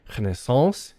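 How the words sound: It is said with a French pronunciation. "The French say Renaissance in the original French"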